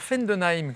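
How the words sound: The name is said with an Alsatian pronunciation. "quand on prononce à la strasbourgeoise ou à l'alsacienne"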